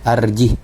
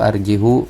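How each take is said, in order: First: The word ends on a bare h sound. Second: The word ends with an added u vowel. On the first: The speaker calls it right. "tetap harus disukunkan" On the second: The speaker calls it wrong. "atau arjihu, tidak ya"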